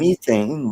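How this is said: It is said the British way. "they say"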